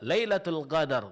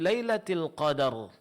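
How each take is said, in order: First: Qadar begins with a gh sound. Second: Qadar begins with a deep q sound. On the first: It means the night of deception. The speaker calls it wrong. "Kalau dibaca dengan huruf ghain" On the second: It means the night of glory. The speaker calls it right. "malam qadar yang penuh kemuliaan"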